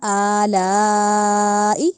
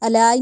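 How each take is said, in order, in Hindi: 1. पहला स्वर लंबा खींचकर पढ़ा जाता है। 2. पहला स्वर छोटा है। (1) "अलिफ के ऊपर खड़ी ज़बर को पढ़ा" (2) "अलाई नहीं कहना"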